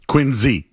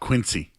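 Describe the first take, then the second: First: It is said the way locals say it. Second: It is said the way outsiders say it. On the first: The speaker is from the town. The speaker calls it right. "They would say they're from Quincy" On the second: The speaker is not from the town. The speaker calls it wrong. "not Quincy"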